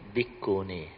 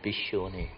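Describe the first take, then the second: First: The middle consonant is a k sound. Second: The middle consonant is an sh sound. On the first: This is the Theravada way of saying it. "Whereas Theravada, they pronounce as Bikuni" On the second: This is the Mahayana way of saying it. "I think Mahayana, they pronounce it Bishuni"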